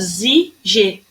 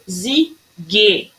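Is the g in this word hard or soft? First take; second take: soft; hard. First: The g is soft, like a zh sound. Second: The g is hard, like in go. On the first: It is how the word would read without the U. The speaker calls it wrong. "Se ele não tivesse essa letrinha U aqui, eu ia falar zig" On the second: It is how the word is meant to be said. The speaker calls it right. "Ele quis dizer zig"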